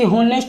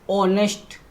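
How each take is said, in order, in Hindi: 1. यह शब्द बोली जाने वाली h की आवाज़ से शुरू होता है। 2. यह शब्द स्वर से शुरू होता है, h नहीं है। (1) "ना कि होनेस्ट होता है"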